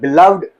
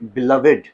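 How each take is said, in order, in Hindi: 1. -ed का अंत सिर्फ़ सादा d ध्वनि है। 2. -ed का अंत एक अतिरिक्त शब्दांश है। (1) "जब आप यूज करते हो बाई के साथ" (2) "जब आप एज एडजेक्टिव इस तरह से आप यूज करते हो"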